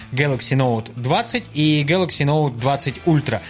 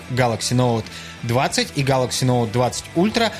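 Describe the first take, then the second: The two takes are said the same way.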